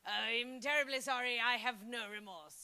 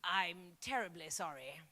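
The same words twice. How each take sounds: First: Mock remorseless politeness; insincere apology. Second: Low, soft terribly sorry; mock posh Brit apologising; understated stiff English politeness; polite English apology. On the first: Shown as a demonstration. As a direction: say sorry while meaning none of it. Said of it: "Listen to it". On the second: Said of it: "Or when they say".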